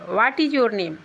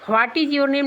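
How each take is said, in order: First: The word 'what' starts with a plain w sound. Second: The word 'what' starts with a breathy h sound. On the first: The speaker calls it right. "सही उच्चारण वाट होगा" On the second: The speaker calls it wrong. "व्हाट is your name नहीं बोला जाता है"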